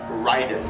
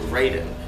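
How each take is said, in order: First: The name is said with Japanese pronunciation. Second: The name is said with English pronunciation. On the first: The speaker calls it wrong. "the Japanese pronunciation of the name Raiden would be" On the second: The speaker calls it right. "the video game itself calls it"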